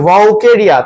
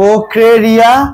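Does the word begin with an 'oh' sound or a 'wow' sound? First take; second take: wow sound; oh sound. First: It begins with a 'wow' sound. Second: It begins with an 'oh' sound. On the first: The speaker calls it wrong. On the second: The speaker calls it right.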